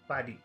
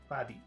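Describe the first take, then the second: No difference in how they are said.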